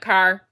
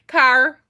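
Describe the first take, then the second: First: It is said in the speaker's ordinary accent. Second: It is said in an imitated Irish accent.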